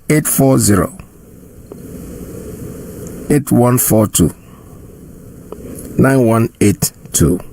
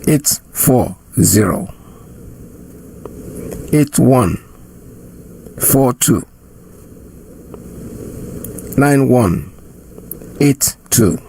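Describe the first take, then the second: First: The number is read at normal speed. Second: The number is read slowly.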